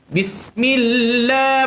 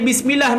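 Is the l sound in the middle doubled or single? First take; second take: doubled; single. First: The l sound is held long and doubled. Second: The l sound is short and single. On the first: The speaker calls it right. "Bismillah mesti ada sabdu pada lafzul jalalah millah" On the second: The speaker calls it wrong. "tak ada bismillah, milah"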